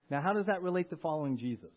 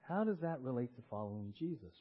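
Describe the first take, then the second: First: Said in the usual way. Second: Quieter, lower repeat of the question; asking it again, softer and lower. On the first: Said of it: "question then repeated softly". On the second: Shown as a demonstration. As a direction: drop the voice for the repeat. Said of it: "repeated softer".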